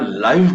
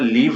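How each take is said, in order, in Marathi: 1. स्वर मोठा आहे, five सारखा. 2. स्वर छोटा आहे, give सारखा. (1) "त्याला लाईव्ह म्हणायचं" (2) "त्याला लिव्ह नाही म्हणायचं"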